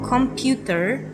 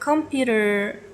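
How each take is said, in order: First: It is said with a Russian accent. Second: It is said with a standard English accent. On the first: "they pronounce it different, like computer" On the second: "borrowed words like computer"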